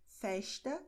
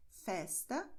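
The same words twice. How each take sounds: First: Festa with the S said as sh, fɛʃtɐ; Rio pronunciation. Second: Festa with a plain hissing S, fɛstɐ; São Paulo pronunciation. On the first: Teacher shows the Rio de Janeiro accent: festa as fɛʃtɐ. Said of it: "É como as pessoas no Rio de Janeiro pronunciam". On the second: Teacher models her own São Paulo accent: festa with S. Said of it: "nós pronunciamos como no resto do Brasil". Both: Shown as a demonstration.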